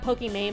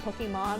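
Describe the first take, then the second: First: The last syllable sounds like 'main'. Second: The last syllable sounds like 'mahn'. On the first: The speaker calls it wrong. "like not Pokimane" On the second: The speaker calls it right. "but like Pokemon, like Iman"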